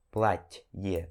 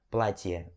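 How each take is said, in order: First: Платье low, in two parts, "plat... ye"; pause in the middle. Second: Платье joined as "plat-ye", low and softer; softened t. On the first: Teacher repeats slowly for learners, платье split in the middle. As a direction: hold a gap inside платье after soft t. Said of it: "dá meio que uma pausa". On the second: Teacher puts the word together, платье with soft t. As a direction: close the gap in платье, keep t soft. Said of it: "aquela suavizada". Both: Shown as a demonstration.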